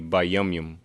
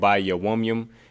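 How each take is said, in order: First: The extra middle syllable is left out. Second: The extra middle syllable is pronounced. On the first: The speaker calls it right. "we tend to omit that uh that extra syllable" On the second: The speaker calls it wrong. "instead of saying"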